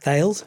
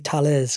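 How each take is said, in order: First: The name is given an English-style pronunciation. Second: The name is given a European-style pronunciation. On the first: "as a, you know, generic English speaker, it reads like Thales" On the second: "in European it might be Thales"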